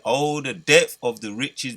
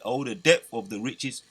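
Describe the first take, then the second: First: It is read slowly. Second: It is read quickly.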